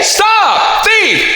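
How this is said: It is said in a full, belted calling voice. The speaker calls it right. "That's called the belting register or the call register"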